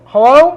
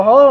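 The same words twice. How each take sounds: First: High, louder questioning hello; caller's hello. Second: Said in the usual way. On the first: Retold or imitated. Answering the found phone, imitating the caller in a high voice. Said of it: "and they go". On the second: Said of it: "And I go".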